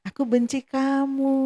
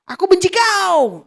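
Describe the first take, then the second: First: It is said in a Sundanese manner. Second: It is said in a Batak manner.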